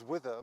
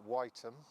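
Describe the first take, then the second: First: The name ends with an 'er' sound. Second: The name ends with an 'um' sound. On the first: "mis- mispronouncing that" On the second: "The nineteenth century way of saying it was"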